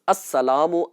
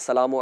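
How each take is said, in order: First: The opening 'as' sound is fully pronounced. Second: The opening 'as' sound is dropped. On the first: The speaker calls it right. "मुकम्मल प्रॉपर तरीके से लफ्ज अस्सलामु अदा किया जाए" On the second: The speaker calls it wrong. "आदतन जैसे आ, सलाम का लफ्ज कह देते हैं ना"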